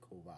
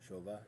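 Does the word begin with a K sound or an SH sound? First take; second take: K; SH. First: The word begins with a hard k sound. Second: The word begins with a soft sh sound. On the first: The speaker calls it right. "put a hard K sound in there" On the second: The speaker calls it wrong. "They were going show"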